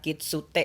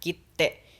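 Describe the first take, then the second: First: A separate tsu syllable is pronounced in the middle. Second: The t is held long as a doubled consonant. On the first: The speaker calls it wrong. "bukan kitsute" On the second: The speaker calls it right. "tapi dibacanya kite. Jadi dibacanya itu double"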